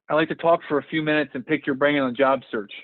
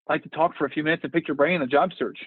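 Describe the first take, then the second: First: It is said slowly and deliberately. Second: It is said at natural conversational speed.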